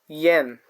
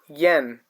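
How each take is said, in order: First: The vowel sounds like the 'e' in 'yes'. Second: The same.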